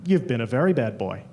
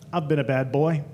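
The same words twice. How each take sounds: First: Much lower, teasing bedroom voice; deep mock seductive answer; sultry reply. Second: Lower, teasing bedroom voice; flirty come-on. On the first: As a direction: growl it back as a flirty partner. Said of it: "the guy would look back at me and say". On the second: Retold or imitated. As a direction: purr it as a flirty tease. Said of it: "I'd turn to the guy and I'd say".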